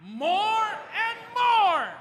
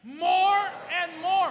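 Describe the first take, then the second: First: Much higher, louder, very slow and stretched; full enthusiasm. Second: Higher, louder, slow and drawn out; with vigor and a smile. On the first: Pastor calling for one more time, big enthusiastic shout. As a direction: shout it out with joy. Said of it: "One more time". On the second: Pastor urging the church to say it with a smile, joyful and loud. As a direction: lift it up joyfully. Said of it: "put a smile in our face". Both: Shown as a demonstration.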